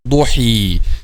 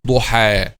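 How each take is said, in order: First: The word ends with a long ee vowel. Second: The word ends with a long ah vowel. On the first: The speaker calls it wrong. "not ضحي" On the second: The speaker calls it right. "This will be pronounced like alif"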